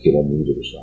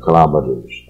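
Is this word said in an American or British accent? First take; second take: British; American. First: It is said in a British accent. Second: It is said in an American accent. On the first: "英国人是念" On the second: "美国人常常念中西部念"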